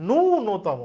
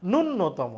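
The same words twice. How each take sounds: First: ন্যূনতম with long drawn-out first vowel, nuu-no-tomo; correct pronunciation. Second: ন্যূনতম with short first vowel and doubled n, nun-no-tomo; common mispronunciation. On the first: Teacher corrects students' slip, ন্যূনতম said properly as "nuu-notomo". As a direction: stretch the "nuu" in ন্যূনতম, then a single n. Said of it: "উচ্চারণ হচ্ছে". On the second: Teacher shows students the common slip, mispronounced ন্যূনতম as "nun-notomo". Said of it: "বলার সময় ভুল বলি". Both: Shown as a demonstration.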